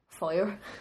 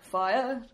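First: The word is said in a plain voice. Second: The word is said in a dramatic put-on voice.

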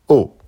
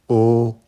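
First: The pitch falls sharply from high. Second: The pitch stays high and level. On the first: "Quatrième ton" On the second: "premier ton"

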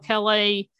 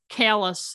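First: It is said with a French pronunciation. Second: It is said with a local English pronunciation. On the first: This is what the name should properly be. "should be called Calais" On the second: This is how people in the state actually say it. "the state that pronounces the town"

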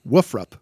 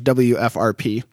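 First: It is spoken as a single word. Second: Each letter is spoken separately. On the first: "it should be Woofrup" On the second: "we've always said that as WFRP"

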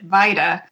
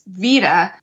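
First: The name is said with an English-style pronunciation. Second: The name is said with a Spanish-style pronunciation. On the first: This is how one acquaintance said her own name. "she pronounced it Vida" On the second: This is the usual pronunciation from the name's origin. "It's derived from Spanish, so it's Vida"

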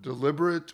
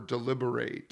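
First: It is said in the non-verb form. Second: It is said in the verb form. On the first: It names a quality or thing. "I'm using both as a noun and a verb" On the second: It names an action of careful thinking. "I'm using both as a noun and a verb"

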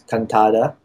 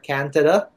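First: The name is pronounced the Filipino way. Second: The name is pronounced the American way. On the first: "in the Philippines you pronounce my last name as Cantada" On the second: "But in the States, I guess when you initially read it, it's Cantada"

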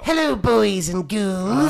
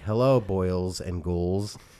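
First: It is said in a Crypt Keeper voice. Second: It is said in his normal voice.

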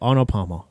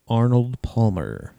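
First: It is said fast. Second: It is said slowly.

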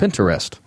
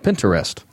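First: It is said with three syllables, pin-ter-est. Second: It is said with three syllables, pin-ter-est.

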